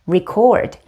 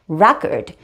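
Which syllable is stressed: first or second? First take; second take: second; first. First: The stress is on the second syllable. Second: The stress is on the first syllable. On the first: It is the verb meaning to record. "즉 이음절의 강세가 있어요" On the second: It is the noun meaning a recording. "즉 일 음절에 강세가 있기 때문에"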